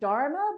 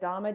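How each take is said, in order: First: The name is said with an r sound. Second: The name is said without an r sound. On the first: This is the older form of the name. "I would call her Dharma" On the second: This is the changed form of the name. "changed it to kind of like Dharma, D H A M M A"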